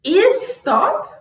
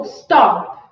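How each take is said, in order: First: "Is stop" with IS pushed high and questioning; stress on first syllable. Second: "stop" hit loud on the O, falling; stress on the O. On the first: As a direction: test "Is stop" with the weight on IS. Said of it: "falar a palavra em voz alta e pensar". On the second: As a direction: snap the weight onto the O in "stop". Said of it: "Estala lá no O". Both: Shown as a demonstration.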